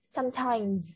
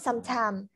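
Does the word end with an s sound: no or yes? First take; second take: yes; no. First: The word ends with a final s sound. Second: The word ends without a final s sound. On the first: The speaker calls it right. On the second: The speaker calls it wrong. "Not sometime"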